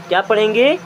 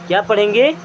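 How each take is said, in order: No difference in how they are said.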